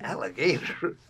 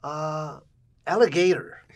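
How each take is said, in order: First: Questioning repeat, rising at the end; retold baffled question; puzzled echo. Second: High, loud imitation of his mother; loud, high mock-mom pronouncement; mother's broken English. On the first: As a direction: echo it back in mock puzzlement. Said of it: "And I said". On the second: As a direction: announce it proudly as an imitated mom. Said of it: "She speaks broken English".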